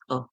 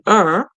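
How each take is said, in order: First: The ending is a plain schwa without r. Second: The ending has an r-colored vowel. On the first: "in British English, you would hear the E R making a schwa sound" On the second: "the Americans would um, roll it a bit to say er"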